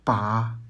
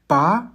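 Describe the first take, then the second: First: The syllable is said with the third tone. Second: The syllable is said with the second tone. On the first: "Troisième ton" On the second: "Deuxième ton"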